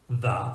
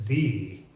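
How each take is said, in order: First: The vowel is a short, reduced schwa. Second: The vowel is a full, long E sound.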